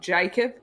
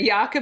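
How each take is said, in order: First: The name is said with an English pronunciation. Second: The name is said with a non-English pronunciation. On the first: The speaker calls it wrong. "not Jacob" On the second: The speaker calls it right. "for Jakob"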